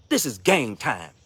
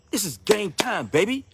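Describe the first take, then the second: First: Slow, weighty declaration; slow emphatic. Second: Higher, energetic rally cry; hyped-up. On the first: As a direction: lay each word down slowly. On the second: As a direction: fire them up. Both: Real, not acted.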